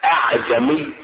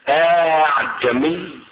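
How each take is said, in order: First: Only one glottal stop is heard at the start. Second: The vowel between the two glottal stops is lengthened. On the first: "بهمزة واحدة" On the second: "بمد الهمزة الثانية"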